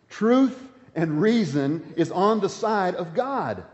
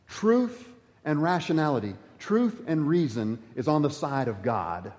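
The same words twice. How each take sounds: First: Truth and reason is on the side of God, slowed down with each word weighted; slow emphatic repeat. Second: Said in the usual way. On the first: Shown as a demonstration. Preacher repeating his key line slowly to the congregation. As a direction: lean on it slowly so it lands. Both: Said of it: "Can I say that one more time?".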